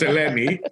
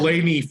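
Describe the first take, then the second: First: Eleni said the Greek way; Greek pronunciation. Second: Eleni said the English way; Anglicized name. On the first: Host correcting himself on guest's name, Greek Eleni. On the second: Host admitting his first attempt, Anglicized Eleni. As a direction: say Eleni as an Anglo would, without Greek accent. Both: Shown as a demonstration. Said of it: "trying to be a complete Anglo".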